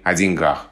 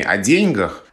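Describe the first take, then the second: First: The stress is on the second syllable of деньгах. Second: The stress is on the first syllable of деньгах. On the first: This is the modern form. The speaker calls it right. "направление движения в сторону вариантов" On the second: This is an old-fashioned form. The speaker calls it wrong. "Ударение на первом слоге"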